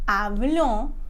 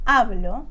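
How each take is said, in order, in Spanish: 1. El acento está en la última sílaba. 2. El acento está en la primera sílaba. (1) "con el acento al final" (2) "con el acento adelante"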